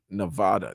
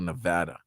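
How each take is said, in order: First: The second vowel sounds like the one in 'father'. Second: The second vowel sounds like the one in 'cat'. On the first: This is the pronunciation locals dislike. The speaker calls it wrong. "they don't like being called Nevada" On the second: This is the pronunciation locals prefer. The speaker calls it right. "They want to be called Nevada"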